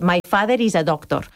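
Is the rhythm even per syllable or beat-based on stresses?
even syllables. Spanish rhythm, each syllable roughly equal length.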